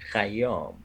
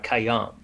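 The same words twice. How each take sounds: First: It begins with a throaty kh sound. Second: It begins with a plain k sound. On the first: This is the original way to say the name. The speaker calls it right. "That's actually Khayyam" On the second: This is how Americans say the name. The speaker calls it wrong. "they cannot do the khay. But they say Omar Khayyam"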